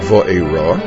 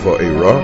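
First: The stress falls before the last syllable. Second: The stress falls on the last syllable. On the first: This is the habitual anglicized way of saying it. The speaker calls it wrong. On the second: This is the proper Hebrew form. The speaker calls it right.

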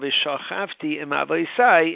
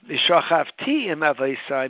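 First: The stress is on the next-to-last syllable. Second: The stress is on the final syllable. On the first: The speaker has already died. "When you pronounce it malel" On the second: The speaker will die in the future. "means I will die"

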